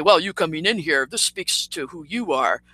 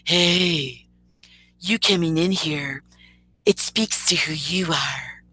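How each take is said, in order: First: First loose try at his voice; rough impersonation. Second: Slow, drawn-out mock version of his voice; mocking impersonation. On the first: Retold or imitated. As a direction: lightly imitate him telling you off. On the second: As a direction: drag the words out as you imitate him. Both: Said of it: "Or let me get his voice down".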